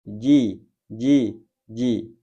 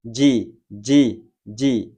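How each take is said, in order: First: Ji closed off with no puff of air; jim without breath. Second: Ji with a puff of breath; breathy jim. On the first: Teacher demonstrating a clean jim. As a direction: say ji with no breath after it. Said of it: "tanpa mengeluarkan nafas". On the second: Teacher showing jim wrongly breathed. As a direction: push air out after ji. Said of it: "dibaca dengan mengeluarkan nafas". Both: Shown as a demonstration.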